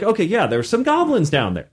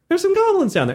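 First: Said in the usual way. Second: Much higher, squeaky reassurance; there's some goblins down there, pitched way up to coax; pleading repeat. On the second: Retold or imitated.

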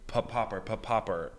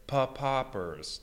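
First: Said in the usual way. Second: "pa-poppers" with the beats pulled apart, off the rhythm; out of time. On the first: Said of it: "it wasn't like". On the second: Shown as a demonstration. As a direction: break "pa-poppers" into loose, uneven beats. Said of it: "out of time".

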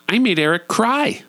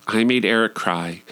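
First: High, theatrical announcement; mock boast. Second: Said in the usual way. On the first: Mock boast, then flat repeat.

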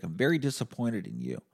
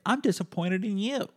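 First: Said in the usual way. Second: Much higher mock nurse voice; high-pitched imitated retort; nurse clapping back. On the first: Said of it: "I looked at her and I was like". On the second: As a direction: throw it straight back in a high put-on voice. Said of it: "she clapped back and she was like".

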